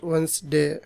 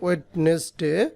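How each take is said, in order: First: The middle 'd' is dropped, giving 'Wensday'. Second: Every letter is sounded, including the middle 'd'. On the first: The speaker calls it right. "এটা উচ্চারণ হবে ash ওয়েন্সডে" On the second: The speaker calls it wrong. "আপনারা পড়েন ওয়েডনেসডে"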